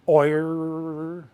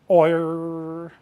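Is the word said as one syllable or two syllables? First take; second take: one syllable; one syllable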